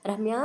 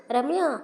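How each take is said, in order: First: Said in the usual way. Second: Louder, higher call of the name. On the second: A narrator's reading. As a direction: shout the name across the house. (భార్యను గట్టిగా పిలవడం) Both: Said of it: "అని అరుస్తూనే లోపలికి వచ్చాడు".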